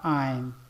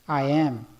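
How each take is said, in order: First: The words are joined into one syllable. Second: Both words are said in full. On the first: "na forma contraída" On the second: "formas cheias"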